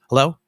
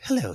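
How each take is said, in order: First: The greeting sounds curt and irritated. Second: The greeting sounds soft and affectionate. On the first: The speaker's mind is still on work. The speaker calls it wrong. "why you sound so angry?" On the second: The speaker is focused on the loved one. The speaker calls it right. "switch from work mode to sweetie mode"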